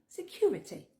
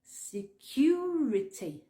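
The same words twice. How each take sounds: First: "Security" quick and higher, as "sekyoority"; natural-speed YOU sound. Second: "Security" very slow, as "se-kyoo-ri-tee"; YOU sound. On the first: Teacher repeats Security whole, YOU sound at natural speed. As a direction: say Security in one go with kyoo. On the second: Teacher breaks down Security for learners, slow YOU sound. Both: Shown as a demonstration. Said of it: "tu dois le prononcer U".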